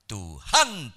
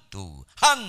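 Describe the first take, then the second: First: The stress is on the second syllable. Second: The same.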